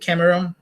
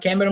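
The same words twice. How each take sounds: First: The name is said with English sounds. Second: The name is said with Portuguese sounds. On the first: "na pronúncia de lá" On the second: "Estou falando Cameron"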